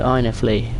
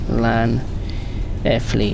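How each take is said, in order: First: The name begins with a vowel sound. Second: The name begins with an L sound. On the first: The speaker calls it right. "it's an I. ... Hooray, I got it" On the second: The speaker calls it wrong. "It's not an L"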